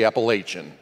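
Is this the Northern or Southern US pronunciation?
Northern. It is said the Northern US way.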